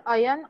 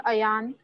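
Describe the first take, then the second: First: AYAN with a short, unstressed second vowel, "AH-yun". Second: AYAN with a long second vowel, "a-YAAN". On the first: Teacher checking a student's name, short-vowel pronunciation. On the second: Teacher offering the other name pronunciation, long-vowel pronunciation. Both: Shown as a demonstration. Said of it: "your name is Ayan or Ayan".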